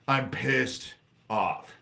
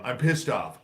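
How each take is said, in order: First: "I'm pissed off" dragged out word by word, very slow. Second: Said in the usual way. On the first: Real, not acted. A fed-up streamer telling chat he's angry, very slow. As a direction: let each word sink in, slowly. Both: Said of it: "I'm pissed off tonight".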